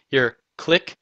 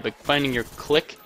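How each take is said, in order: First: Ironic "clique" with a rising lilt; mock-ironic "your clique", tilted up at the end; air quotes. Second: Said in the usual way. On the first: Shown as a demonstration. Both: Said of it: "air quotes".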